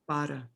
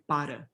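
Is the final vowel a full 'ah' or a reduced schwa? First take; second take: schwa; schwa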